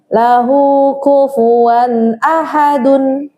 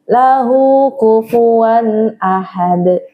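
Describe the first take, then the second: First: The last word ends with a vowel and n. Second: The last word ends on the d sound.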